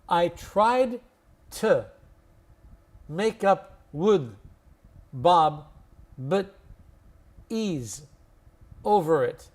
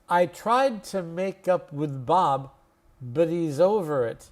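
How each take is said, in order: First: The sentence is spoken very slowly. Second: The sentence is spoken slowly but a bit quicker. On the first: "I'll say it really slowly first" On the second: "slowly, but just a little faster than the first time"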